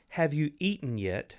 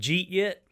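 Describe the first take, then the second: First: Every word is said clearly and separately. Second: The first words are squeezed into one syllable. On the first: "Instead of saying"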